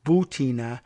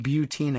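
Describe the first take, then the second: First: Butina said with a plain "boo" start, boo-TEE-na; suggested pronunciation. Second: Butina said with a "byoo" start, byoo-TEE-na; usual mispronunciation. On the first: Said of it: "at best, it's". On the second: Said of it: "I keep saying Butina". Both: Shown as a demonstration.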